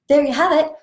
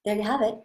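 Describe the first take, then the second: First: Higher, louder cheerful repeat; excited. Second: Said in the usual way. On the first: Shown as a demonstration. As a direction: say it again with a lift. Repeats line with energy.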